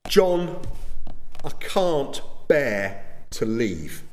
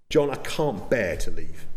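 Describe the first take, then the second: First: Tearful plea. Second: Said in the usual way. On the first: Retold or imitated. Wife begging her husband not to leave their church, a touch tearful and drawn out. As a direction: plead with him like a wife close to tears, lightly acted. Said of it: "Mary Fawcett cried". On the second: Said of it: "I didn't".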